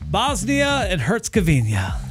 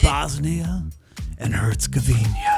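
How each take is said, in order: First: It is said in a plain, neutral way. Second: It is said in a romantic, seductive tone.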